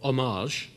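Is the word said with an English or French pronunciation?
French. The word is said with French pronunciation.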